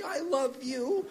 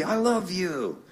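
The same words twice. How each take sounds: First: Very high, soft, slow mom voice; imitated doting mom. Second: Higher dad voice, falling at the end; easing down from a big exuberant greeting; imitated doting dad. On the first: Mom on the extension to her son, imitated high soft cooing. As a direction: coo it high and slowly, lifting at the end. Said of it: "you hear her pick it up". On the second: Dad greeting his son on the phone, imitated affectionate call. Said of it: "my dad would always go".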